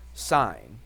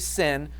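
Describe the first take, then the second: First: The vowel is long, rhyming with 'fine'. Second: The vowel is short, rhyming with 'fin'. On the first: The speaker calls it right. "we say what? Sign" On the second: The speaker calls it wrong. "We don't say sin"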